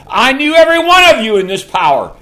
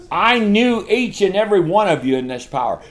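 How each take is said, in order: First: Higher and louder, full preaching force; preaching shout. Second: Said in the usual way. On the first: Real, not acted. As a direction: proclaim it at the top of your voice. Repeated, now shouted.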